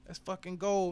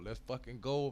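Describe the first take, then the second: First: Much higher, loud hype yell; hype shout. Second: Said in the usual way. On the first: Real, not acted. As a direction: scream it the second time. Second call escalated. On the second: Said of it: "first call".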